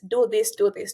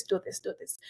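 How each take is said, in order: First: Said in the usual way. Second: Unvoiced whispered "do this, do this". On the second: Real, not acted. Host advising students, echoing it in a whisper. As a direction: drop to a whisper for the echo. Repeated advice, whispered echo.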